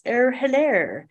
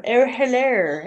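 First: Jokey posh English hello; practicing a posh English accent. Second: Slow, drawn-out posh English hello; mother-in-law's posh English hello; posh English accent. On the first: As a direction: mimic the Queen's posh English greeting. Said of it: "We would all joke around and practice". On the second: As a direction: put on a plummy posh English greeting like the Queen. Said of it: "because that's how the Queen would say it". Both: Retold or imitated.

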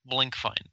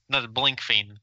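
First: Blankfein said the preferred way, Blank plus fine; correct version. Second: Blankfein said as the rejected version, laughing; wrong version, laughing. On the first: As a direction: settle on Blankfein. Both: Shown as a demonstration.

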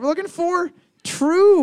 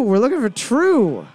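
First: High, loud game-show call; host announcement. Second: Said in the usual way. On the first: Acted. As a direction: belt out the answer like a host.

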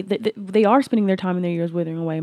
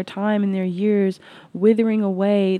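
First: "are" punched as the correction, quicker pace; corrected line landing on "are"; stress on ARE. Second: Said in the usual way. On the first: Shown as a demonstration. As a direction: hit "are" firmly to fix the slip. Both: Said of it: "My apologies, my correction".

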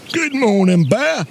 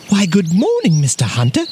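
First: Higher-pitched put-on hunter voice; storybook hunter. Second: Lightly voiced courteous bear, starting high; courteous bear greeting, falling at the end; polite little bear. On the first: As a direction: answer curtly as the hunter. Hunter answers the bear. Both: A narrator's reading.

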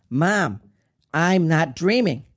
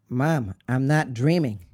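First: Loud, higher desperate cry; screamed plea. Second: Pleading, urgent insistence; insistent protest. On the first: Son screaming to his dying mother, desperate. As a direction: cry out to stop her. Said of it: "I screamed". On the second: Son insisting to his dying mother, urgent protest. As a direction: protest to Mom, voice still under control. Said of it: "I said". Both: Retold or imitated.

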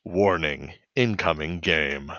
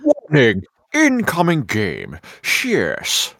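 First: Low, slow system announcement; game warning voice. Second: Mock-menacing game announcer; intimidating male voice. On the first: Retold or imitated. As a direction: imitate a calm automated game alert. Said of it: "the warning incoming game voice". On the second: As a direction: ham up a threatening male announcement. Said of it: "an intimidating male voice".

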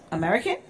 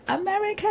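First: Raised, questioning mock surprise; imitating a puzzled local; curious question. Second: Mock high-pitched delighted squeal; soaring, hammed-up excitement; changed tune. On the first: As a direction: ask it higher, as if checking. Retold reaction on hearing the speaker. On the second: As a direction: imitate locals suddenly thrilled by it. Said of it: "they changed their tune".

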